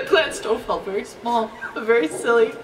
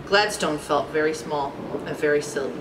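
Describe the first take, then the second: First: Cracking up while quoting the story; laughing. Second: Low, soft storybook reading; subdued narration. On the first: Real, not acted. Reader repeats the story's line to themselves, laughing. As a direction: repeat it through real giggles. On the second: A narrator's reading. Narrator tells of Gladstone's humbling, subdued. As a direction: read it small and understated.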